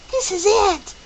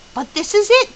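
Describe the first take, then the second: First: "This" hit hard, then falling tune; stress on this. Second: "it" lifted high with a rising tune; stress on it. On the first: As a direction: punch "This" and drop at the end. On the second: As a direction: lean on "it" and let it climb. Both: Acted. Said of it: "His voice quivered with excitement".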